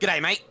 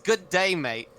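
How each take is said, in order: First: The words are crushed together into one. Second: The words are said fully and separately. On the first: "the typical" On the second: "and then it's all crushed together"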